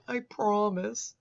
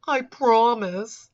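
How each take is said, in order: First: Slow, wimpy mock plea; a limp, drawn-out promise; pussified. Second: Pussified. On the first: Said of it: "that's how I read it". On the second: Retold or imitated. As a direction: make it sound weak and whiny. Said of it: "I love the way he says this. It's just so pussified". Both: Mocking how he types it, a slow whiny promise.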